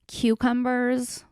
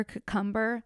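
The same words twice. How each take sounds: First: Drawn-out kyoo-cumbers, slow and deliberate; funny cucumber. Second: Cucumber said softly as kuh-cumber; funny cucumber. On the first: Playing with the word for listeners, slow. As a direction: savor cucumbers syllable by syllable. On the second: Quietly trying the word another way for fun. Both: Shown as a demonstration. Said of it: "it's funny to say cucumber".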